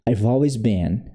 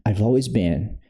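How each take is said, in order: First: The words I have are contracted to I've. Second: The same.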